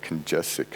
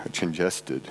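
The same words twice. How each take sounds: First: "congested" garbled into "con-JESS-ick"; slip of the tongue. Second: Said in the usual way. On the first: Real, not acted. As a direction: stumble on "congested", its ending blurred to "-ick". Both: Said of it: "excuse me".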